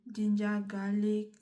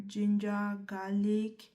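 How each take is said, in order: Both takes have the same delivery.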